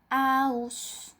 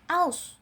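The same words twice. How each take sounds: First: The word is drawn out long. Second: The word is clear and cut short. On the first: The speaker calls it wrong. "Tidak boleh dibacanya" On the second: The speaker calls it right. "dibaca dengan jelas"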